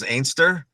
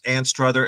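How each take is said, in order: First: The name is said in a shortened Scots way. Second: The name is said in full, as spelled. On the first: "Scots pronounce Anstruther as Ainster" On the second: "if you pronounce it out"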